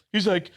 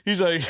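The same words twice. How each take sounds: The two takes are said the same way.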